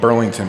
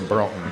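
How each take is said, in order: First: The name is said with all three syllables. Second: The name is shortened to two syllables. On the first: "I'm from Burlington" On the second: "we used to say Burlton"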